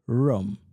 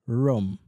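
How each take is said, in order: No difference in how they are said.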